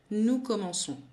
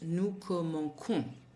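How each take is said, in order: First: The c is soft, sounding like s. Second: The c is hard, sounding like k. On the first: The speaker calls it right. "so that nous commençons" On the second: The speaker calls it wrong. "is not pronounced nous commençons"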